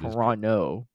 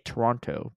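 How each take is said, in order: First: The Toronto way, with the second t dropped. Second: The American way, with the second t pronounced.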